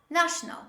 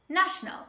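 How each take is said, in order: The two takes are said the same way.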